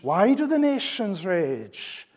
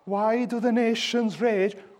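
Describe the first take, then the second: First: The question sounds astonished and incredulous. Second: The question sounds despairing and hopeless. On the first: The opposition is seen as folly. The speaker calls it right. "The question here expresses astonishment" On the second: The speaker feels there is no hope. The speaker calls it wrong. "This is not"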